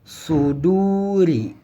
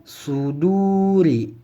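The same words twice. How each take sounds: The two takes are said the same way.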